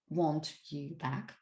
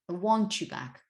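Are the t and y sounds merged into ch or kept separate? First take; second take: separate; merged. First: The t and y are kept separate. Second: The t and y merge into ch. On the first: The speaker calls it wrong. "this is not actually what he sings" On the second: The speaker calls it right. "the mixture of these two sounds"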